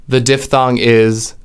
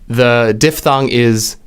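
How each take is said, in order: The two takes are said the same way.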